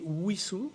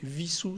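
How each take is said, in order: First: The name begins with a w sound. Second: The name begins with a v sound. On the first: The speaker calls it right. "avec le W à l'anglaise" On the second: The speaker calls it wrong. "c'est-à-dire avec le W à l'allemande"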